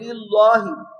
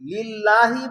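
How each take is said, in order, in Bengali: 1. আরবি ধ্বনিগুলো অনির্ভুলভাবে উচ্চারিত হয়। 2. আরবি ধ্বনিগুলো সুনির্দিষ্টভাবে উচ্চারিত হয়। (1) "বলবে লিল্লাহি" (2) "লিল্লাহি বলবে না"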